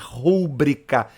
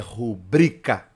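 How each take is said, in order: First: The stress is on the first syllable. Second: The stress is on the second syllable. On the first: The speaker calls it wrong. "não é rúbrica... Não proparoxítona" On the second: The speaker calls it right. "é rubrica. É paroxítona"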